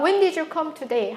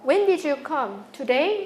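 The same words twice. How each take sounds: First: It runs as one unbroken phrase. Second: There is a break before the word today. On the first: It asks what time the person came today. "하나인 거" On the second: It checks whether the person came today. "인토네이션 유닛이 두 개 있는 것"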